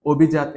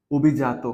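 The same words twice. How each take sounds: First: Said in the usual way. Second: অভিজাত said as the answer, carefully sounded out; careful model pronunciation of অভিজাত; pronunciation demo. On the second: Shown as a demonstration. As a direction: say অভিজাত the way it should be pronounced. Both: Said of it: "এর উচ্চারণ কেমন হবে?".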